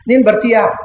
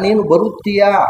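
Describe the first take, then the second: First: The verb is shortened, with one syllable dropped. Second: The verb is said in full, all syllables kept.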